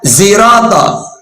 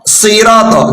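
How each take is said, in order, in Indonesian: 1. Kata itu diawali bunyi z. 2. Kata itu diawali bunyi s. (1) "pakai za, ziroto" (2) "sod, siroto"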